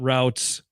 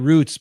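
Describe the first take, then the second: First: The vowel sounds like 'ow' in out. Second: The vowel sounds like 'oo' in boot. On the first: The speaker calls it wrong. "It's not routes" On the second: The speaker calls it right. "that is the proper way to to say the word"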